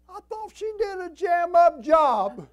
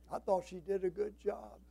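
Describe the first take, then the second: First: Very high, loud, stretched-out protest; indignant shout. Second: Said in the usual way. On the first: Retold or imitated. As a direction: holler it in comic disbelief. Mock indignation at mother's remark.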